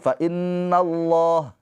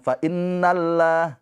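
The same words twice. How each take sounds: First: The l in Allah sounds thick and heavy. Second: The l in Allah sounds thin and light. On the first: The speaker calls it right. "dibaca dengan tebal, tafkhim" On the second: The speaker calls it wrong.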